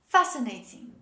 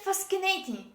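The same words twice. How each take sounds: First: No k sound is pronounced after the s. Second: A k sound is pronounced after the s. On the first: The speaker calls it right. "This is fascinating" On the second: The speaker calls it wrong. "Don't say fascinating"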